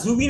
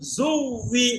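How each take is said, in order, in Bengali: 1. w ধ্বনিটি একক, কোনো ধাক্কা ছাড়া। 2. w ধ্বনিটি ডবল, ধাক্কা দিয়ে বলা হয়। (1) "না না জুবি না তো" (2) "জুভি ধাক্কা দিয়ে জু"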